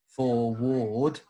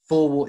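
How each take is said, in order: First: The word is said slowly, drawn apart. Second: The word is said at normal speed.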